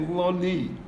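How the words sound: The final vowel is an 'ee' sound. "they'll say lo ni"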